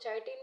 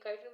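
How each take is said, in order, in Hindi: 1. यह शब्द ch ध्वनि से शुरू होता है। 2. यह शब्द k ध्वनि से शुरू होता है। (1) "इसको लोग चाइटिन भी बोलते हैं" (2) "मैं काइटिन बोलती हूँ"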